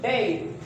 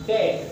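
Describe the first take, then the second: First: डेड with a gliding e-i vowel; diphthong vowel. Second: डेड with the usual short e; डेड said the everyday way; plain. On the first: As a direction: stretch डेड into a glide. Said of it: "लेकिन ये बोला जाएगा". (डेड को डिफथंग के साथ बोलें) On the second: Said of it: "आप बोलते हैं डेड". (आम तरह से डेड) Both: Shown as a demonstration.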